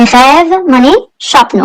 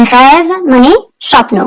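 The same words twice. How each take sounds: The two takes are said the same way.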